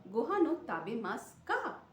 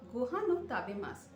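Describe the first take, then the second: First: Rising on কা at the end; question tune. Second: Said in the usual way. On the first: Shown as a demonstration. Teacher turns a statement into a question with কা. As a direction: lift the final কা into a question. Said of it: "শেষে শুধু কা শব্দ". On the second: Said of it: "কা শব্দ যোগ করলে".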